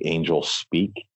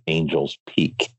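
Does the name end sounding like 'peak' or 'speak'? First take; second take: speak; peak. First: The s starts the last part: speak. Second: The s ends the first part: peak. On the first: The speaker calls it wrong. "I always say Angels Speak" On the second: The speaker calls it right. "the correct pronunciation of the book is Angels Peak"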